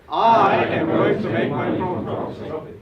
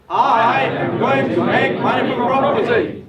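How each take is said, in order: First: Loud, high, slow chanted pledge; loud affirmation. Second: Full shout, much higher and slow; twice as loud. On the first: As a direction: chant it with the crowd. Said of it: "Once more". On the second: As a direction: roar the pledge with everything. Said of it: "Twice loud". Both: Shown as a demonstration.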